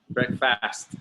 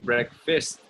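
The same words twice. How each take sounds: First: The second syllable sounds like the word fast. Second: The second syllable sounds like the word fist. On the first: The speaker calls it wrong. "I know it's difficult because the word this fast" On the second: The speaker calls it right. "but it's actually breakfast like this, a fist"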